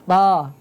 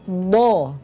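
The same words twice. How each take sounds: First: A thin, light sound without raised tongue back. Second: A heavy sound made by rounding the lips. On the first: "tipis ya" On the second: "Bukan do. Ini maaf dibulatkan"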